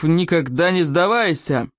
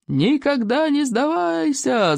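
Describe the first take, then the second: First: Slow, solemn motto; dignified. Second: High, drawn-out rallying cry; gleeful yelling. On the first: Chief states the tribe's motto, dignified. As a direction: proclaim it slowly with a chief's dignity. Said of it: "с великим достоинством". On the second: Pleased hooligans yell back the chief's motto, gleeful. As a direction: stretch it out high like a pleased mob. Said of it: "заорали довольные хулиганы". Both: A narrator's reading.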